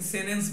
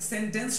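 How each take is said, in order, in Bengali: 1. n-এর পরের t ধ্বনিটি বাদ যায়। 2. n-এর পরের t ধ্বনিটি উচ্চারিত হয়।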